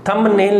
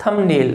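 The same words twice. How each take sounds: First: थंबनेल with the b sounded; the mistaken b in थंबनेल; wrong pronunciation. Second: थंबनेल with m running straight into n; silent b. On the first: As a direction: say थंबनेल with a b between m and n. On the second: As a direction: say थंबनेल without any b. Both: Shown as a demonstration. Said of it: "थंबनेल नहीं होगा".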